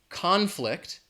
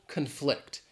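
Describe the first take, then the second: First: The stress is on the first syllable. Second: The stress is on the second syllable. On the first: It is used as a noun. "the noun conflict" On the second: It is used as a verb. "the stress is on the second syllable"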